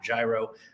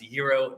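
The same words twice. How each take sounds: First: The word has a Detroit pronunciation. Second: The word has its standard pronunciation. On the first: The speaker calls it wrong. "not gyro. Uh, that's how I grew up pronouncing it in Detroit" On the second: The speaker calls it right. "it is pronounced gyro"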